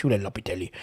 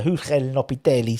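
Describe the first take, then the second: First: Said in the usual way. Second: Slight Italian accent on Julen Lopetegui. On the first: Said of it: "cause he's Spanish". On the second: Real, not acted. Host naming the Spanish manager by mistake in an Italian accent. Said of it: "said it with an Italian accent".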